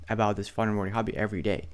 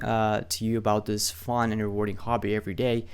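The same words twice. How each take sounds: First: "about" hit first and hard, the rest rushed; stress on about. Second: Said in the usual way. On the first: Shown as a demonstration. Explaining his email line, punching "about" at speed. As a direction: lean on "about", then run the rest fast. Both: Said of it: "when I say about every day".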